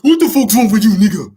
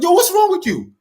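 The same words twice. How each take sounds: First: Put-on loud, high-pitched West African accent; annoyed dad bursting into a thick West African accent. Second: Very high-pitched exasperated outburst; annoyed father. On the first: Father snapping at his pestering son, annoyed West African accent. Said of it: "He pulls out his African accent". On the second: Retold or imitated. Father fed up with his son's repeated plea, mock annoyed outburst. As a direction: imitate an irritated dad, pitch shooting up. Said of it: "such annoyed at me".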